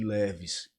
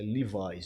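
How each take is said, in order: First: The brand name is said the local way. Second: The brand name is said the English way. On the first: This is how locals commonly said it. The speaker calls it wrong. "usava muito as marcas Zump e Leves" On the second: This is the proper pronunciation of the brand. The speaker calls it right. "cuja pronúncia é Levi's"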